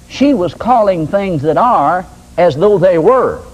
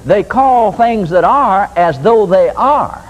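First: Slow, stressed "as though they were"; "calling things that are as though they were" said slowly, weighting "were"; stress on the right way. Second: Slow, weighted "as though they are"; "They call things that are as though they are" drawn out slowly, leaning on "call"; stress on the mistake. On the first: Preacher stressing the right way to call things, slow and deliberate. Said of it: "this is another mistake". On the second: Preacher mocking the Christians' mistake, slow and stressed. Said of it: "this is another mistake that most Christians make".

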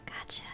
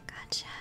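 Both takes have the same delivery.

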